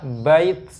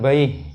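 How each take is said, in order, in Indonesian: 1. Kata itu berakhir dengan bunyi t. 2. Kata itu berakhir dengan bunyi h. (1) "ketika diwakafkan tetap tak juga" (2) "Bukan baih"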